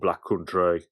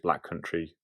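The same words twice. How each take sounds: First: It is said in a local Black Country accent. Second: It is said in a standard English accent.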